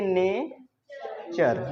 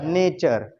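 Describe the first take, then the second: First: नेचर drawn out slowly as ne... cher; syllable-by-syllable pronunciation. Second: Said in the usual way. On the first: Shown as a demonstration. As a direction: split नेचर into two slow beats, NE, then CHER. (नेचर को तोड़कर धीरे-धीरे बोलें: ने... चर) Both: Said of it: "इसको पढ़ेंगे".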